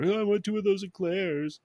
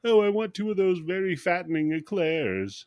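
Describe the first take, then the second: First: High, put-on copy of a lady's order; mimicking the lady. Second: High-pitched lady customer voice; lady ordering eclairs. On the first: Bum copies the wealthy lady at the bakery, high mimicking voice. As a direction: parrot her in a high voice. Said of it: "and mimics her". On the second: Acted. Wealthy lady orders pastries at the bakery, lightly acted high voice. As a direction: put on a lady's higher voice. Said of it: "'cause the lady's like".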